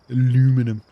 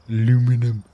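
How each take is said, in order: Both takes have the same delivery.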